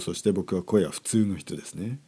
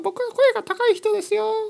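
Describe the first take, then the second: First: It is said in a normal-pitched voice. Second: It is said in a high-pitched voice.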